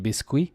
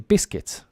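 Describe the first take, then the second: First: It is pronounced the French way, following the spelling. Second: It is pronounced the English way, like biskit. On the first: "the spelling is the French spelling, which would be biscuit" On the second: "we say biscuits because we pronounce it correctly"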